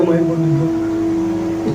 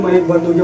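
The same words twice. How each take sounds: First: Softer and slow, as if stunned; slow quiet repeat. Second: Said in the usual way. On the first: Retold or imitated. Stunned as the mic cuts out on stage, soft and slow. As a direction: let it sink in, almost to yourself.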